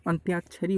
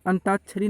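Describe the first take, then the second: First: अंत्याक्षरी said antyaakshari, a clear y glide after the t; teacher gives the right antyaakshari with the y sounded; correct form. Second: अंताक्षरी said as antaakshari, no y glide after the t; teacher shows the wrong antaakshari without the y; wrong form. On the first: Teacher correcting students, careful antyaakshari with y. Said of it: "होता है". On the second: Teacher warning students of a common mistake, wrong antaakshari. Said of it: "नहीं होता दोस्तों". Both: Shown as a demonstration.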